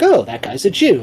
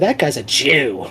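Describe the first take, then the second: First: It is said in a plain, neutral tone. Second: It is said with a sneering, contemptuous tone.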